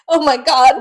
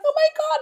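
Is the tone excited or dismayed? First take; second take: dismayed; excited. First: It sounds dismayed and worried. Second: It sounds excited and happy.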